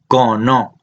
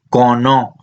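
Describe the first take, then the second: No difference in how they are said.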